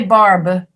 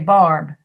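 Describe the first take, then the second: First: The final B is released strongly. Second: The final B is barely heard. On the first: The speaker calls it wrong. "You don't say barb" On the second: The speaker calls it right. "you say barb"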